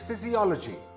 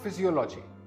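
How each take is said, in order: First: The stress is on the third syllable. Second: The stress is not on the third syllable. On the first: The speaker calls it right. "The third syllable is stressed" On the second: The speaker calls it wrong. "This word is not physiology"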